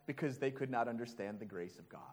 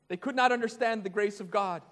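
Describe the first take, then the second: First: Quick aside. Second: Not pressed with a falling tune; stress on not. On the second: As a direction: lean hard on not, then fall away. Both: Shown as a demonstration.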